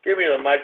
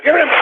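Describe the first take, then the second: First: Said in the usual way. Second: High, exasperated outburst; sudden yell. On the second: Real, not acted. Host demanding the mic, sudden yelling. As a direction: burst out with the demand, pitched way up.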